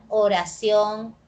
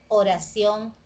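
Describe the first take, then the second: Both takes have the same delivery.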